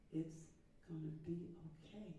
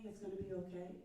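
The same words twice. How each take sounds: First: "it's ... gonna be ... okay" broken by pauses; soft, spaced-out "it's gonna be okay"; separated phrasing. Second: "it's gonna be okay" run together in one connected line; smooth, joined-up "it's gonna be okay"; connected phrasing. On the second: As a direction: link "it's gonna be okay" without breaks. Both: Shown as a demonstration. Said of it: "Do you hear that difference?".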